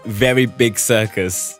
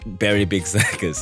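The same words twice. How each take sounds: First: The first word starts with a V sound. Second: The first word starts with a B sound. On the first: "that's probably meant to say Very Big Circus" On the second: "because the V sound is a B in Jap in Japanese, it's like"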